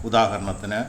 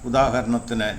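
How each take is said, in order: Both takes have the same delivery.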